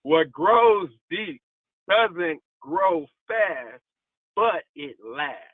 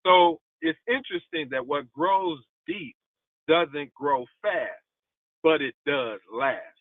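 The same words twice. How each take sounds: First: Slow it right down so it sinks in; slow emphatic repeat. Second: Said in the usual way. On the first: Shown as a demonstration. Preacher repeating the line slowly to the congregation, drawn out. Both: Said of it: "Let me say that one more time".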